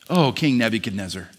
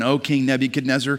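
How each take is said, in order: First: It is said with a compassionate, tender tone. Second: It is said in a plain, neutral tone.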